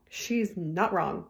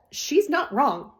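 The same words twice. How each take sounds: First: Said in the usual way. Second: "not" stretched, higher and louder, slow; stress on not. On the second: Shown as a demonstration. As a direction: lean hard on "not" in "She's not wrong".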